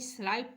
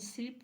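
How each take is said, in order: First: The vowel sounds like 'eye'. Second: The vowel sounds like 'ih'. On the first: The speaker calls it wrong. "कहीं कहीं स्लाइप भी पढ़ते" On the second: The speaker calls it right. "स्लिप्ट ही उच्चारण शुद्ध है"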